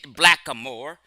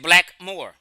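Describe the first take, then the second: First: A middle vowel is heard between black and moor. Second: No middle vowel is heard between black and moor. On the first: The speaker calls it wrong. "No one pronounced it blackamoor" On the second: The speaker calls it right. "They just said blackmore"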